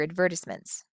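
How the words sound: It is said with a northern US accent. The listener does not understand it. "I had a friend from the north"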